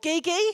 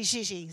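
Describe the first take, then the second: First: The consonant is not the zh sound of leisure. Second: The consonant is the zh sound of leisure. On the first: The speaker calls it wrong. "you're going to want to say Gigi or Gigi" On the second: The speaker calls it right. "it's actually slurred and it's got that same sound as leisure or pleasure"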